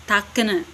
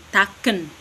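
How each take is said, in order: First: Takene said with a clear final E, ta-ke-ne; three syllables, end on the E of takene; Watu Wawer takene. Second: Taken said without the final E, two syllables; Lerek taken. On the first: Lecturer demonstrating the village word, takene with final E. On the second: Lecturer contrasting the other village, taken with no final E. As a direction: cut taken off after the n. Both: Shown as a demonstration. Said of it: "itu kayak ada E di belakang begitu".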